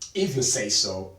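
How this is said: It is said in a pointed, aggressive tone. The speaker agrees reluctantly, with hidden resentment. "That's a different intonation. ... it's more aggressive"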